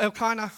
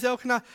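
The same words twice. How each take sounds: First: Elkanah said "el-KY-nuh"; corrected pronunciation. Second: Elkanah said "EL-kuh-nuh"; mistaken pronunciation. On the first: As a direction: say Elkanah with a long "eye" in the middle. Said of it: "I've learnt during the week that it's". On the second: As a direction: say Elkanah with a short, weak middle vowel, "kuh". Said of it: "I keep saying Elkanah 'cause that's the way I thought it was". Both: Shown as a demonstration.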